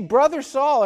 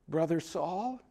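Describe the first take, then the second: First: It is said boldly and confidently. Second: It is said hesitantly and timidly.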